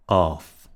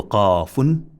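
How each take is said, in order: First: "qaf" closed on f with no "un", lower pitched; silent ending. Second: "qafun" slow, with long a and sounded "un"; everything read out. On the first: Teacher's second reading, "qaf" with silenced ending. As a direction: stop "qaf" on its last consonant. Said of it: "apply silence to the letter". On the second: Teacher's first reading, "qafun" said in full. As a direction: give every sound of "qafun" through the ending. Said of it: "read everything out". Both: Shown as a demonstration.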